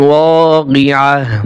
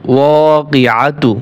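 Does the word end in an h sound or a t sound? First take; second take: h sound; t sound. First: The word ends with a soft h sound. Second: The word ends with a t sound and vowel. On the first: The reader stops at the end of the verse. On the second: The reading continues without a stop.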